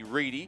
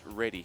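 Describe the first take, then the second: First: The first vowel is long, like 'reed'. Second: The first vowel is short, like 'red'. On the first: The speaker calls it right. "the correct pronunciation at least, is definitely Reedy" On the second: The speaker calls it wrong. "not Ready"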